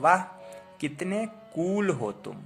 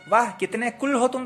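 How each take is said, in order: First: The vowel in kool is long. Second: The vowel in kool is short. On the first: The speaker calls it right. "यहां पर उच्चारण बड़ा हो रहा है" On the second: The speaker calls it wrong. "तो हम लोग नहीं बोलते हैं"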